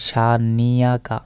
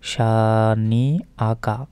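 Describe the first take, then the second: First: A y sound joins the two middle vowels. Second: A glottal catch separates the two middle vowels. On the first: The speaker calls it wrong. "আমরা অনেকে ভুল উচ্চারণ করি" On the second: The speaker calls it right. "নুন জেন্নি হামজা জবর আ"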